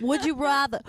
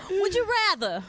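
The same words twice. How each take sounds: First: Said in the usual way. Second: Higher, teasing game-show ask; playful sing-song. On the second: Shown as a demonstration. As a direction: toss it out playfully, pitched up.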